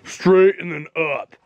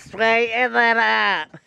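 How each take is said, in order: First: It is said in a normal voice. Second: It is said in a geeky voice.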